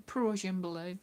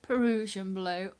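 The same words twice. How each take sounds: First: "Prussian" said as PRUSH-un, two syllables; "Prussian blue" with no vowel after the P. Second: "Perusian" with a puh- before the r; "Perusian blue" stretched to three syllables. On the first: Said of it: "not Pr-, Prussian". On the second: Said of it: "listen to Debbie say it is Perusian blue". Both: Shown as a demonstration.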